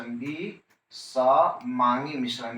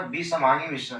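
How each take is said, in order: First: विसमांगी मिश्रण stretched out very slowly; drawn out slowly. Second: Said in the usual way. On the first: Shown as a demonstration. Teacher repeating विसमांगी मिश्रण slowly for notes. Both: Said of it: "इधर क्या बोलने का है".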